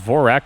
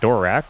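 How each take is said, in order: First: The name begins with a V sound. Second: The name begins with a D sound. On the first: "I'm going to pronounce it as Vorak" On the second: "and not Dorak"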